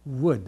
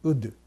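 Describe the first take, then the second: First: It begins with a w glide from rounded lips. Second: It begins with a plain u, lips unrounded. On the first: This is the English way of saying it. The speaker calls it right. "ウッドじゃなくてwood" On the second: This is the Japanese way of saying it. The speaker calls it wrong. "これは英語ではないですね"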